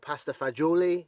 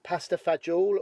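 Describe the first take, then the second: First: It is said in a standard Italian form. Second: It is said in a southern Italian dialect form. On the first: It is the proper, correct name. "if you want to say it properly" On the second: It is the family's everyday slang name. "we call it"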